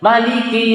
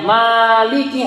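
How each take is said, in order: First: The first vowel is kept short. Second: The first vowel is held long. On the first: "Tapi kita juga dengar Maliki Yaumiddin" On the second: "Kalau panjang Maliki harusnya ada alif"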